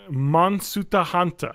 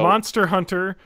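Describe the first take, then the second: First: It is said with Japanese pronunciation. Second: It is said with English pronunciation.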